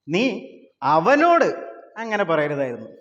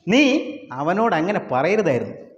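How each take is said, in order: First: It is said with one word stressed. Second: It is said flat with no stressed word.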